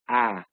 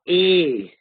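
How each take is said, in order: First: The vowel is said with its short sound. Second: The vowel is said with its long sound. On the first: "when I use it with apple, I don't say a, I say a" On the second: "when I say ape, I say a"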